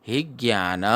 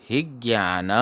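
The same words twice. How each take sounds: Both takes have the same delivery.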